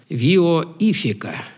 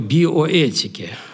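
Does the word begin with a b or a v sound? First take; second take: v; b. First: The word begins with v and has an f. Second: The word begins with b and has a t. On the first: This is the older Russian reading of the Greek letters. "А сказать бы по старому произношению" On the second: This is the current, Western-style reading. "мы говорим проблема биоэтики"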